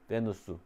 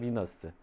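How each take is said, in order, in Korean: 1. 이 이름은 'be-nu-seu'라고 발음해요. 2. 이 이름은 'bi-neo-seu'라고 발음해요. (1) "로마로 가서 이름을 받는 게 베누스" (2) "미국 영어식 발음으로 비너스"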